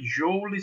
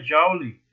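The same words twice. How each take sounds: First: JOULE said as written, "JOW-lee" with an O; as spelt. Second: JOULE said "JAU-lee", with an open A; as pronounced. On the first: Physics teacher shows students how the unit is written, joule read as spelt with an O. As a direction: say JOULE with a clear O, "JOH-oo-lee". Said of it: "Se escreve joule". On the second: Teacher shows students how the unit is pronounced, joule with an A sound. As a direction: say JOULE slowly with A for O, "zhau-lee". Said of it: "se pronuncia joule". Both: Shown as a demonstration.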